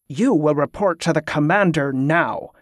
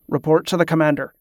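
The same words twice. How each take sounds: First: Sharp, measured order; restrained anger. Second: Said in the usual way. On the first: A narrator's reading. Superior correcting a disobedient subordinate, restrained sharp anger. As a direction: correct him with understated anger. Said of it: "the voice corrected, low and sharp with anger".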